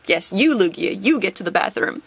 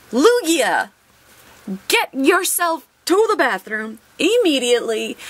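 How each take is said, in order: First: Said in the usual way. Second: Higher, firmer bossy-teacher order to the card; mock stern teacher. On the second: Pulls Lugia card, mock command.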